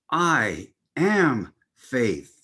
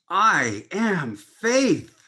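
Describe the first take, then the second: First: It is said firmly with an authoritative tone. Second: It is said with the highest, zealous energy. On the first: The speaker claims power and dominion. "say it with a sense of authority" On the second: The speaker adds the power of zeal. "raising it even higher in energy"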